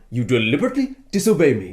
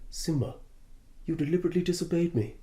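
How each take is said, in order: First: The line is delivered in a dramatic, animated way. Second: The line is delivered in a flat, casual way.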